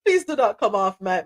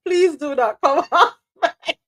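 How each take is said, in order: First: Said in the usual way. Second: Request broken by a laugh; giggling mid-request to the host; laughing through it. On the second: Real, not acted. Host asks guest to stay on mic, laughing.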